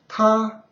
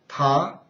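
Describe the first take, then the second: First: It is said with the first tone. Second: It is said with the second tone.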